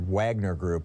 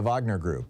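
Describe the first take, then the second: First: Wagner begins with a W sound. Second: Wagner begins with a V sound. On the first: "if you want to Americanize it" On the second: "W's are pronounced like V's in German and Russian"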